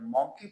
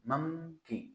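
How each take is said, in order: First: The first vowel is an open 'o' sound. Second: The first vowel is a short 'u' sound. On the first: The speaker calls it wrong. "Teachers हजरात भी इसको mostly M O N के E Y मॉन्की पढ़ाते हैं" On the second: The speaker calls it right. "But it's pronunciation is मंकी"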